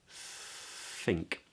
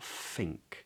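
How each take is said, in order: First: The word begins with a breathy th sound. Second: The word begins with an f sound. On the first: The speaker calls it right. "But it's think" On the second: The speaker calls it wrong. "It's not an F. Don't make that mistake"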